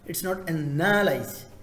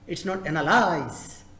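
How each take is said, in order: No difference in how they are said.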